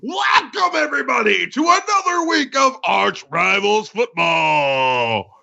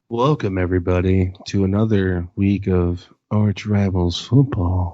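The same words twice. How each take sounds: First: It is said with lively, hyped-up energy. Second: It is said in a flat, boring way.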